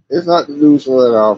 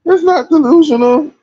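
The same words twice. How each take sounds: First: Said in the usual way. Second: High squeaky insistence; squealed protest. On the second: Real, not acted. Repeats phrase, pitch falls each time.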